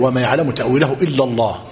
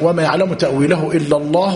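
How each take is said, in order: First: The phrase ends with a full stop after Allah. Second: The phrase runs straight on after Allah without stopping. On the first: The next phrase starts a new sentence. "وتقف" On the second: The next phrase is joined to this one. "يجوز أن تقول لا"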